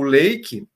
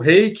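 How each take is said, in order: First: The word begins with an L sound. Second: The word begins with an R sound.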